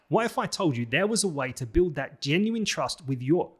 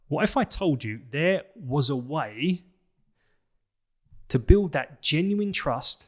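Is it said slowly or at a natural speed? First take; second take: natural speed; slowly. First: It is said faster, at natural speed. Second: It is said slowly and deliberately.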